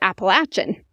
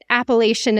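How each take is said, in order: First: The word has its southern regional pronunciation. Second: The word has its northern regional pronunciation. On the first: The speaker calls it right. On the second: The speaker calls it wrong. "is not the right way to say it"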